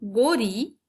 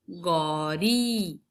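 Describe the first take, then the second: First: गोरी with a short, closed ओ; teacher contrasting गोरी with गौरी; vowel contrast. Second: गौरी drawn out very slowly, open औ; teacher contrasting गौरी with गोरी; stretched au vowel. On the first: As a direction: say गोरी with a tight o. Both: Shown as a demonstration. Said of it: "उसके उच्चारण में थोड़ा बहुत अंतर".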